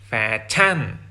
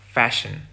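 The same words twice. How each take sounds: First: The second vowel is a short ah. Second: The second vowel is a weak schwa. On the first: The speaker calls it wrong. "with a short ah sound" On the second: The speaker calls it right. "with the English schwa sound"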